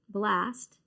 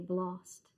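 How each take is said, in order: First: The vowel is a short flat 'a' sound. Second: The vowel is a broad 'ah' sound. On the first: "the way we pronounce it" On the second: "how the um, Australians and Europeans say it"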